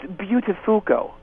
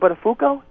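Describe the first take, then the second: First: The name's start sounds like the word 'beautiful'. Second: The name's start does not sound like 'beautiful'. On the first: This is the name's new, classier pronunciation. "it's kind of got the the hint of the word beautiful in it" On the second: This is the name's former pronunciation. "It's no longer Buttafuoco"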